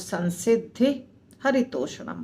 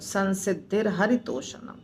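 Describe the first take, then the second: First: The words are separate, with no linking r sound. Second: The words are joined by a linking r sound. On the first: "हम अगर अलग अलग बोलेंगे तो" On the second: "इकट्ठा बोलेंगे तो"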